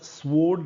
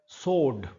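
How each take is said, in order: First: A w sound follows the s. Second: No w sound follows the s. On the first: The speaker calls it wrong. "ये शब्द स्वोर्ड नहीं है" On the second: The speaker calls it right. "व silent है इसमें"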